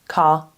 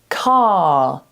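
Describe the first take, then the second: First: The vowel is cut short. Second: The vowel is held long. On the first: The speaker calls it wrong. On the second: The speaker calls it right.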